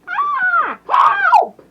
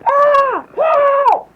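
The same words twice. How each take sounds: First: It is an unconvincing female voice impression. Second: It is a convincing female voice impression.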